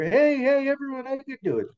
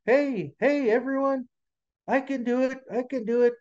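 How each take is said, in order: First: High little muskrat holler; small animal straining to be heard; hollering louder. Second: Tiny high muskrat voice; squeaky-high little animal, not shouting. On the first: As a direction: call out high, loud on the first heys. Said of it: "he hollered a little louder". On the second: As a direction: pipe up small and high, trying to be noticed. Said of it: "he had a little voice". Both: A narrator's reading.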